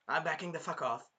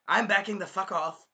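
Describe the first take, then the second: First: Said in the usual way. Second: Higher, louder blurted retreat; mock alarm. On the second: Naofumi backing away from the girl, mock alarmed. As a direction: act out a startled back-away.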